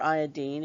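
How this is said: The word is said the British way.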